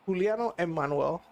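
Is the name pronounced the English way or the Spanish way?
Spanish. The name is pronounced the Spanish way. "That's the way I, you say it in Spanish"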